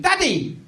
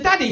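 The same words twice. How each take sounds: First: Imitated child losing patience; impatient toddler. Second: Said in the usual way. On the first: Son calling dad away from conversation, impatient. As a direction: repeat the call with a touch of impatience. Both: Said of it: "he got impatient".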